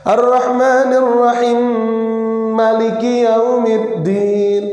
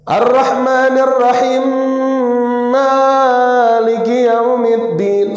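First: The words are joined and maliki is read short. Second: The first vowel of maliki is drawn out long. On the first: The speaker calls it right. "maka Malik yaumiddinnya dibaca pendek" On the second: The speaker calls it wrong.

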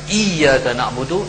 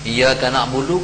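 First: The y sound is held long and doubled. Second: The y sound is short and single. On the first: You alone are whom we worship. The speaker calls it right. "akan dikau kami sembah" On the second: Sunlight is what we worship. The speaker calls it wrong. "kalau tak tanpa syaddah tu dah panggil cahaya matahari kami sembah"

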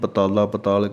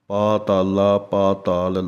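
First: The first vowels are short. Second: The first vowels are long. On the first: The speaker calls it wrong. "ਆਮ ਹੀ ਪਤਾਲਾ ਪਤਾਲ ਕਹਿ ਦਿੰਦੇ ਹਨ" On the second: The speaker calls it right. "ਇਹ ਦੀਰਘ ਮਾਤਰਾ ਹੈ"

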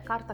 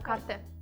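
First: The word ends in an a sound. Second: The word ends in an e sound. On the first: The speaker calls it wrong. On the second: The speaker calls it right.

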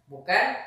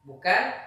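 No difference in how they are said.

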